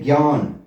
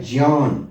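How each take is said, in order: First: ज्ञान said the everyday way as gyaan; common wrong pronunciation. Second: ज्ञान carefully said with j and nya joined; correct pronunciation. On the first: Teacher shows students the habitual mistake, ज्ञान as gyaan. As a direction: show the usual slip, ज्ञान as gyaan. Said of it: "बोलने में हम कह देते हैं". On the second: Teacher models the correct form for students, careful ज्ञान. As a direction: model the right sound, ज्ञान as j plus nya. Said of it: "लेकिन सही उच्चारण इसका है". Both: Shown as a demonstration.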